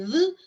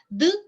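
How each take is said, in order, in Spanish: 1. La d es un sonido de fricción suave. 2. La d es una oclusiva con cierre. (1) "d es un sonido fricativo dental sonoro" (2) "d es un sonido oclusivo eh, dental sonoro"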